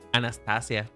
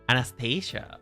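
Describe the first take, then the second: First: The name is pronounced the Spanish way. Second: The name is pronounced the English way.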